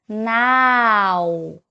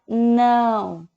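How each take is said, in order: First: The vowel is oral, without nasality. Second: The vowel is strongly nasal. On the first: The speaker calls it wrong. "Se eu não tivesse o tio em cima do A, como é que eu leria essa palavra? Eu leria now, com o som do A" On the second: The speaker calls it right. "Esse som do ão é bem anasalado"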